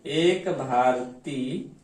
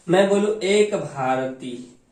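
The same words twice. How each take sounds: First: एक Bharti stretched very slowly, pitch rising on एक; slow repetition. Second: Said in the usual way. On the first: Shown as a demonstration. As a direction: repeat एक Bharti slowly so students catch it. (एक भारती को बहुत धीरे दोहराएँ) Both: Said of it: "repeated slower".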